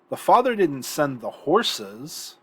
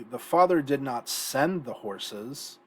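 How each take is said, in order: First: The stress falls on the word horses. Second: The stress falls on the word send.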